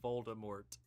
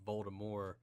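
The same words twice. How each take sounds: First: The final T is sounded. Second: The final T is silent. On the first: This is the pronunciation most people adopted. "which I think sounds a lot better" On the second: This is the pronunciation the author intended. "where the T is silent"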